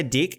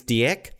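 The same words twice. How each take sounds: First: "Dick" with a short i; short-vowel pronunciation. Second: "Dieck" with a drawn-out vowel, unlike Dick; long-vowel pronunciation. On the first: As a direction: say "Dick" as in the English word. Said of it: "I don't wanna say Dick". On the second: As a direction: say "Dieck" with a longer ee sound. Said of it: "I think it's Dieck". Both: Shown as a demonstration.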